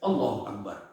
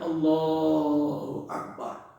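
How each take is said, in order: First: The phrase is said quickly and abruptly. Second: The phrase is drawn out slowly.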